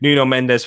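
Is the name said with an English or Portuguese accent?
English. The name is said with an English accent. "just so I don't offend anyone"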